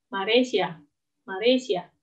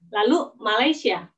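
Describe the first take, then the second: First: Malaysia said as ma-re-shi-a; Japanese katakana reading. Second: Said in the usual way. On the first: Shown as a demonstration. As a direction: say Malaysia as maresia, with r in place of l.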